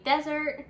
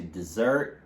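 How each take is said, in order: First: DESert, short e in a strong first syllable; stress on first syllable. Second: DeSERT, weak first syllable, strong SERT; stress on second syllable. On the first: Teacher introducing the noun, stress on DES in desert. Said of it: "the stress will falls on the first syllable". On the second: Teacher giving the verb, stress on SERT in desert. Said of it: "the stress will fall on the". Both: Shown as a demonstration.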